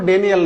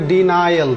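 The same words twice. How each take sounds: First: "ডেনিয়াল" with "de-ni" instead of "di-nai"; mispronounced denial. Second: "ডিনায়াল" with "di" then a "nai" glide; correct denial. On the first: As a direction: say "ডেনিয়াল" as DEN-i-al, the common mistake. ("ডেনিয়াল", ভুল উচ্চারণে "ডে-নি-য়াল") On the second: ("ডিনায়াল", সঠিক উচ্চারণে "ডি-নায়-আল") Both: Shown as a demonstration. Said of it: "pronunciation হবে ডিনায়াল".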